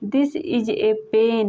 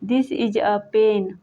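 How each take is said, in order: First: The word 'a' is said as 'ay'. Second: The word 'a' is said as 'uh'. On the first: "ए का उच्चारण ए या अ से करते हैं" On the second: "ए का उच्चारण ए या अ से करते हैं"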